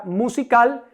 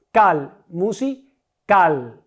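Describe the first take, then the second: First: Said in the usual way. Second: "cal, musical" muy lento, con CAL aislado y luego musi, CAL; aísla CAL y parte "musical" antes de la última sílaba; sílaba tónica marcada. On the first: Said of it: "en el caso de la palabra". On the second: Shown as a demonstration. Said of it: "¿cuál es mi sílaba tónica?". ("cal, musical" silabeado, recargando la voz en CAL)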